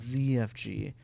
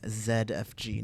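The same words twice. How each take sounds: First: The Z is said the American way. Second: The Z is said the non-American way. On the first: The speaker calls it wrong. "not Z F G" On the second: The speaker calls it right. "I said it right this time"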